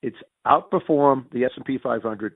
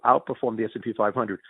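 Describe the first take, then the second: First: "outperform the S and P five hundred" said slowly, each word leaned on; slow, emphatic definition. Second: Said in the usual way. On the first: Shown as a demonstration. Laying down the new rating rule for analysts, slow and emphatic. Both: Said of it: "No, no, no".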